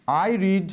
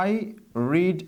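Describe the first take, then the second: First: Said in the usual way. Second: I and read split by a long pause; slow, spaced out. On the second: Shown as a demonstration. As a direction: say I, pause, then read, word by word. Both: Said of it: "এটা হচ্ছে আমাদের basic form".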